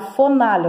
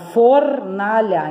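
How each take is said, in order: First: The first syllable has no R sound. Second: The first syllable ends with an R sound. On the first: The speaker calls it wrong. "Eu não falo fonalha" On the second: The speaker calls it right. "eu falo fornalha"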